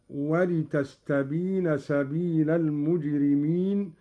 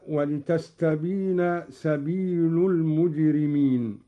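First: "سبيل" said sabila, ending in a; accusative lam. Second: Said in the usual way. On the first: Shown as a demonstration. Teacher demonstrating Qalun, "سبيل" as sabila. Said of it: "قرأ قالون بنصب اللام هكذا".

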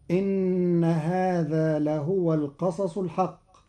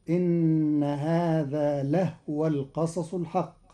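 First: Said in the usual way. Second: لهو said lahwa, the h without a vowel; Qalun reading. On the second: Shown as a demonstration. Teacher reciting the verse to show the lightened ha. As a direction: keep the h in لهو silent of any vowel, lahwa. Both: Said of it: "بإسكان الهاء تخفيفا".

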